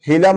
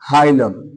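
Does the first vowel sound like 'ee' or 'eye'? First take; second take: ee; eye. First: The first vowel sounds like 'ee'. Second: The first vowel sounds like 'eye'. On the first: This is how the word is spelled. The speaker calls it wrong. "लिखा क्या है जी, हीलम है" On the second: This is how the word is actually spoken. The speaker calls it right. "लेकिन हम लोग क्या बोलते हैं"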